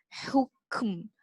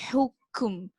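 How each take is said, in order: No difference in how they are said.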